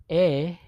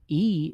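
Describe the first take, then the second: First: E said as "eh"; Spanish vowel e. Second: E said as English "ee"; English letter E. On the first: Teacher giving learners the Spanish vowel, e pronounced "eh". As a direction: say e as in "bet", without gliding. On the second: Teacher naming the English letter first, E pronounced "ee". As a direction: say the letter E to rhyme with "see". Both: Shown as a demonstration. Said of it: "and pronounce 'em".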